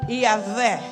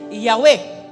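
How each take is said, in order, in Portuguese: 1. O nome é dito com uma leitura portuguesa. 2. O nome é dito com a pronúncia original. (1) "Nós aqui na língua portuguesa nós lemos Iavé" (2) "mas a palavra correta a se dizer é Yahweh"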